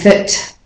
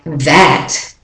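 First: The word that has a reduced schwa vowel. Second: The word that has a full, clear vowel. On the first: The word is not important in the sentence. "the at doesn't say at there, it says it's a schwa" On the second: The word carries main meaning in the sentence. "I'm definitely saying an at in that time"

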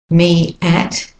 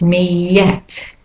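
First: The two words are said separately without linking. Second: A y sound links the two words.

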